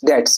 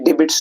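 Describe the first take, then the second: First: The b is left out of the word. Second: The b is clearly pronounced in the word. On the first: The speaker calls it right. "It's डेट्स, इसमें बी silent है" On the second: The speaker calls it wrong. "ये डिबिट्स नहीं"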